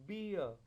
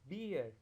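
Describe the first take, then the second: First: British accent, the r after the vowel nearly silent. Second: American accent, the r after the vowel clearly sounded. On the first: "पहले British accent में" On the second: "American accent के अंदर"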